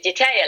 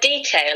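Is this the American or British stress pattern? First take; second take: American; British. First: It is stressed the American English way. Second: It is stressed the British English way. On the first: "in American" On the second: "the word detail in British English"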